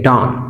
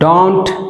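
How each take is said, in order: First: The final t is dropped. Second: The final t is clearly pronounced.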